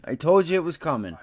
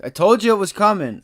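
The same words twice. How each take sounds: First: Said in the usual way. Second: Louder and higher, triumphant; gloating shout. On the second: Real, not acted. Trader telling viewers he called it, triumphant shout. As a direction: crow that you called it.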